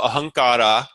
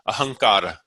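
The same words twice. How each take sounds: First: The final vowel is a long ah. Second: The final vowel is very short, almost dropped. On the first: The speaker calls it wrong. "I've actually made that a long ah, which it's not" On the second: The speaker calls it right. "it's so short that it sounds like it's it's not there"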